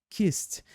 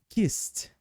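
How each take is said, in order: No difference in how they are said.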